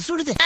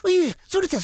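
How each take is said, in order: First: Said in the usual way. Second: Sudden high yelp of pain; ouch, hot hot; burnt yelp. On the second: Real, not acted. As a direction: yelp as if scalded. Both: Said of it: "என்ன சூடு?".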